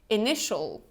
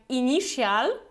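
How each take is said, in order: First: The ending is one short 'shal' syllable. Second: The ending is a drawn-out 'shee-al' sound. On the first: The speaker calls it right. "It's ini, initial" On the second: The speaker calls it wrong. "we don't pronounce it like initial"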